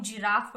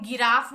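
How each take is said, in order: First: जिराफ said with a j sound, as in jam; the right way, जिराफ starting with j; correct j sound. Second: गिराफ said with a hard g, as in go; the wrong way, गिराफ with a g sound; teacher showing the mistake गिराफ with a hard g. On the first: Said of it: "जिराफ बोल रहे हैं हम इसको". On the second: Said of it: "हम इसको हम गिराफ नहीं बोल रहे". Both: Shown as a demonstration.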